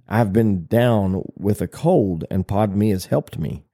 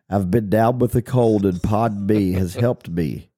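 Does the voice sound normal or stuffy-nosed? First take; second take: normal; stuffy. First: The voice sounds clear, with normal nasal sounds. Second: The voice sounds blocked, as if the nose is stuffed.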